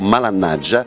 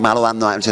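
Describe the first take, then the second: First: It is said as one partly contracted word. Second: It is said as three separate words. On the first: "allora è diventato malannaggia" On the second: "suona malo anno aggia, c'è troppo"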